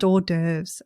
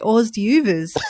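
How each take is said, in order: First: The word is said with French pronunciation. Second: The word is read out letter by letter. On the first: The speaker calls it right. "It's a French word. It's pronounced hors d'oeuvres" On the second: The speaker calls it wrong. "I used to say hors d'oeuvres for a very long, possibly awkwardly long time"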